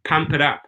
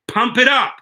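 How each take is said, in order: First: Said in the usual way. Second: Higher, louder hype call; rally the viewers with a punchy lift; energetic cheerleading push; pumped-up urging. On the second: Real, not acted.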